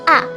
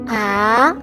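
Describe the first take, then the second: First: The pitch starts high and drops sharply. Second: The pitch starts mid-high and rises. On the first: "starts out high but drops sharply to the bottom of the tonal range" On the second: "starts in the mid-high point in your vocal range and then goes up in pitch"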